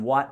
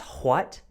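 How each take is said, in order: First: The word is said in a plain, everyday way. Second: The word is said in a refined, posh way. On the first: This is the younger, ordinary way of speaking. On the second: The speaker wants to sound more sophisticated with age.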